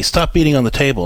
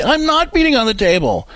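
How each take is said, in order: First: Said in the usual way. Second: Put-on much higher, whiny child denying it; protesting kid. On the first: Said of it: "and you say". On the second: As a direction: play the kid insisting he's innocent. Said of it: "And they say".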